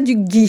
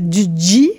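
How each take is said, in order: First: The consonant is a hard 'g' sound. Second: The consonant is a 'dj' sound. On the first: This is not the local way to say it. The speaker calls it wrong. "je ne dis pas du gi" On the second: This is the local way to say it. The speaker calls it right. "le tche et le dje sont deux consonnes qui sont vraiment particulières au galop"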